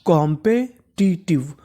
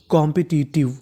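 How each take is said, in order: First: कॉम्पिटिटिव whispered slowly, syllable by syllable; slow spelled-out word. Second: Said in the usual way. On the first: Shown as a demonstration. Teacher whispering कॉम्पिटिटिव slowly for students, drawn out. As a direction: breathe कॉम्पिटिटिव out slowly, sounding each part. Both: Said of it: "तो पूरी meaning क्या बन गई हमारी?".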